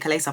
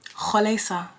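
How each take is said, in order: First: The name is said in an anglicized way. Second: The name is said in a non-English way. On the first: This is how it is said in everyday English. "in regular English, you just say Kalesa" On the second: This is the name's own pronunciation. "Her name is Khalesa"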